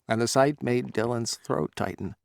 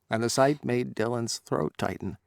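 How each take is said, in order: The two takes are said the same way.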